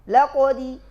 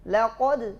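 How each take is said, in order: First: The final d carries an added short i vowel. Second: The final d ends cleanly with no vowel. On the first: The speaker calls it wrong. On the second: The speaker calls it right.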